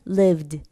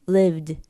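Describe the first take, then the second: No difference in how they are said.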